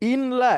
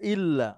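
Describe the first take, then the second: First: An n sound is heard before the l. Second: The n merges into a long double l.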